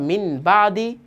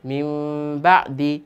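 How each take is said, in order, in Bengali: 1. প্রথম শব্দটি একটি সাধারণ n ধ্বনিতে শেষ হয়। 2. প্রথম শব্দটি একটি নাসিক্য m ধ্বনিতে শেষ হয়। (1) "যেখানে পড়তাম মিন বা দি" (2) "সেখানে এখন পড়ছি মিম বা দি"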